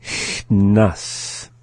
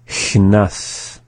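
First: CHNAS stretched, long hiss held before NAS; slowly. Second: CHNAS joined up, shorter hiss into NAS; up to speed. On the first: Teacher going through the word for learners, slowly. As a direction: draw out CHNAS part by part. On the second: Teacher going through the word for learners, up to speed. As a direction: say CHNAS in one go. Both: Shown as a demonstration. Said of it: "go through the same process".

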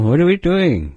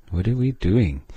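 First: Exasperated question. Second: Said in the usual way. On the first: Shown as a demonstration. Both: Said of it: "You might ask that once in a while".

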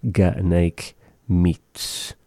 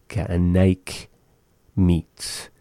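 First: Slow. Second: "Ga anaik" then a pause before "meats."; split with a pause. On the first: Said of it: "teaching pronunciation". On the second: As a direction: break it into two chunks for learners. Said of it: "split with pause". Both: Shown as a demonstration.

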